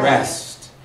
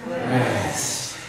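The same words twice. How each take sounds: First: It is said plainly, without an exhale. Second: It is said on a deep, breathy exhale.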